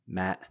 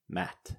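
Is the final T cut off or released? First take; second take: cut off; released. First: The final T is cut off, glottalized. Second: The final T is clearly released. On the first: "We cut the T's off the end of words" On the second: "instead of"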